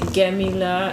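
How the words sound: The word starts with a hard G sound. This is how people in Egypt say it. "In Egypt, they have a weird way of saying ga. they say Gamila"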